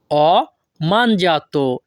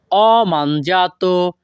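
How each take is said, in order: First: "ho", a clear pause, then "mangiato"; split in parts. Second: Slow, "ho mangiato" joined in one run; said together. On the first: Teacher shows learners the Italian phrase piece by piece, split. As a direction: break between "ho" and "mangiato". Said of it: "এই বাক্যের Italian ভাষা হবে". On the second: Teacher puts the pieces together for learners, slowly joined. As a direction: link "ho" straight into "mangiato", drawn out. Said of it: "আর যদি আমরা একসাথে বলি". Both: Shown as a demonstration.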